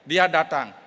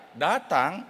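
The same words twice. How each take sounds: First: Said in the usual way. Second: "Datang" drawn out with a doubting rise; doubtful intonation. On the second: Shown as a demonstration. Listener doubts that he came, "Datang" echoed with doubtful tune. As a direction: echo "Datang" slowly, in doubt. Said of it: "efek perlokasi meragukan".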